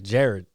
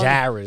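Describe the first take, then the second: First: The name is said in the local accent. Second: The name is said in a New York-area accent. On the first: This is how the name's owner says it. The speaker calls it right. "It's Jared" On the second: This is how outsiders say the name. The speaker calls it wrong. "people from like New Jersey and New York... always say my name Jared"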